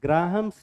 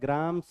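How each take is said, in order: First: The h sound is pronounced in the name. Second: The h sound is silent in the name. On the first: The speaker calls it wrong. "ग्राहम्स नहीं होता है" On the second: The speaker calls it right. "एच silent होता है"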